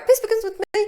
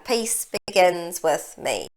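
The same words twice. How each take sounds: First: It is said quickly. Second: It is said slowly.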